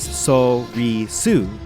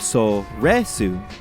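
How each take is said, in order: First: The middle syllable has an 'ee' vowel. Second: The middle syllable has an 'eh' vowel. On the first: This is the older way the speaker said it. "For the longest time, I pronounced this word as" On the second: This is the way the speaker says it now. "I have recently changed over to"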